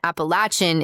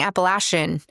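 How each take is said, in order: First: It is said the southern way, with ch. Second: It mixes both ways, with sh for ch. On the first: "the southern pronunciation" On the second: "combining the two by saying Appalachian with a sh instead of a ch"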